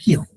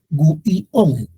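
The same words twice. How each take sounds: First: The vowels merge into one syllable. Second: The vowels are split into separate syllables. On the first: The speaker calls it right. "es guión" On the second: The speaker calls it wrong. "No decimos guión"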